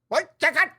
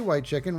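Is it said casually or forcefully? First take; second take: forcefully; casually. First: It bursts out forcefully from the diaphragm. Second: It is said casually, without force.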